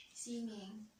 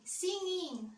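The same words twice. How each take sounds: First: Said in the usual way. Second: Bright burst, pitched up and louder; excited answer. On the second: Real, not acted. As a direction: blurt it out eagerly. Answering singing or dancing.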